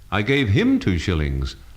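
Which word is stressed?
him. The stress falls on the word him. It went to this person, not another. "not the other fellow"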